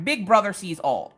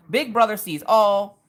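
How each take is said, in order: First: Said in the usual way. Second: "Big Brother sees all" said slowly and louder, leaning on "Brother"; slow emphatic warning. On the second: Shown as a demonstration. Telling the viewers the camera catches everything, slow and loud. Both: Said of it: "let me just say that right now".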